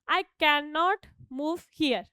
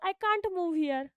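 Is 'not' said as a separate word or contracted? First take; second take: separate; contracted. First: 'Can' and 'not' are said as separate words. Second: 'Can' and 'not' are merged into one syllable.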